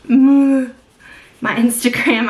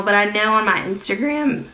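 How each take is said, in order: First: Slow laughing repeat, louder; amused, self-teasing drawl; laughing, drawn out. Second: Said in the usual way. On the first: Real, not acted. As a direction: stretch it out through a laugh.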